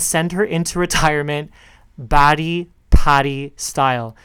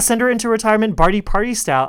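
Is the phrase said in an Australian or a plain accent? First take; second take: Australian; plain. First: It is spoken in an imitated Australian accent. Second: It is spoken in the speaker's usual accent.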